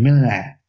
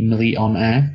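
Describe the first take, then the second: First: The middle vowel sound is left out. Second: The middle vowel sound is fully pronounced. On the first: The speaker calls it wrong. "he misses the O in millionaire" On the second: The speaker calls it right. "it should be millionaire"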